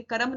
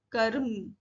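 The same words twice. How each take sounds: First: कर्म as "ka-ram", full vowel after r; misread with added vowel. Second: कर्म as "karm", no vowel after r; light र. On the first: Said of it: "कर्म नहीं पढ़ेंगे". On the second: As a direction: let the r slide lightly into m in कर्म. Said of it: "हल्के से बोलना". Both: Shown as a demonstration.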